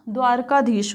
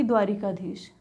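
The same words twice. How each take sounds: First: Said in the usual way. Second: द्वारिकाधीश with "ri" in the middle; wrong-form demo. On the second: Shown as a demonstration. Teacher contrasting the mistake, द्वारिकाधीश with an inserted i. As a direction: lower द्वारिकाधीश, adding an i before k. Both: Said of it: "ना कि द्वारिकाधीश".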